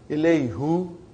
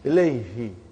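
First: The final pronoun is said with a 'u' vowel. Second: The final pronoun is said with an 'i' vowel. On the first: The speaker calls it wrong. "It takes extra effort. And even also, it doesn't sound nice to the ear" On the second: The speaker calls it right. "You can pronounce with ease"

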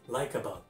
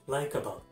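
The two takes are said the same way.

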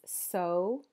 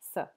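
First: The word is said in its full form. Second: The word is said in a reduced form. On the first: "The full form is so" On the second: "the weak form is just s"

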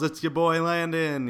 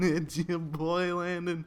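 First: It is said in a polished announcer voice. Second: It is said in a wacky, goofy voice. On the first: "try to do the professional voice for the commentary at the beginning" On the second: "I thought I'd start this video out very wacky like"

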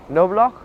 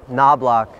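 First: The name is said with a German pronunciation. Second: The name is said with an American pronunciation.

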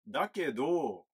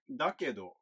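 First: The final syllable is said with extra emphasis. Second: The final syllable is said plainly, without emphasis. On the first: "こうやって言うとそのどを強調した感じになります" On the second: "普通の言い方"

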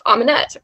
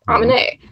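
First: The name ends with a clear t sound. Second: The name ends without any t sound.

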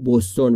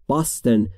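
First: The first vowel sounds like 'oo'. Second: The first vowel sounds like 'ah'. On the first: This is how Persian speakers say it. The speaker calls it wrong. "ما فارسی میگیم بوستون" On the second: This is how English speakers say it. The speaker calls it right. "تلفظ درستش باستون"

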